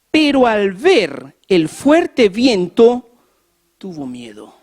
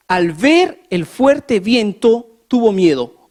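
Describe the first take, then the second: First: Slow emphatic reading. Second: Slow, weighty reading. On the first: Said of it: "lectura enfática repetida". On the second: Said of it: "repite la frase más despacio". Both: Shown as a demonstration.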